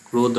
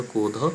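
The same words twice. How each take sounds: First: Said in the usual way. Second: ক্রোধ said as কোধ, without the r; Prakrit form. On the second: Shown as a demonstration. Teacher gives students the form কোধ. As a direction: say কোধ and leave out the r-phala. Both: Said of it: "ক্রোধ রফলা চলে গেল".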